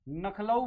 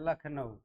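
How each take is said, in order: First: The l and n sounds are swapped. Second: The l and n sounds are in place. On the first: A child's sounds have been swapped by mistake. The speaker calls it wrong. "बच्चों में ध्वनि विप्रय हो जाता है, फिर वो जो है ना नखलऊ बोलेगा" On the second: This is how people normally say it. The speaker calls it right. "जबकि क्या बोलते हैं हम लोग?"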